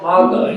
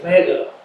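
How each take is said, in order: First: The first vowel sounds like 'a' in map. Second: The first vowel sounds like 'e' in met. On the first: The speaker calls it wrong. "It's not MAGA" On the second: The speaker calls it right. "it's MEGA"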